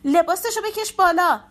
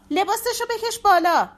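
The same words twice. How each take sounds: First: High, loud urgent shout; frantic shouted command. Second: Even higher, strained panicked yell; desperate shrieking repeat; shrill repeated shout. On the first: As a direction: yell the order in panic. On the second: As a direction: scream it again, voice cracking. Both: Acted. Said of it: "شمسی داد زد".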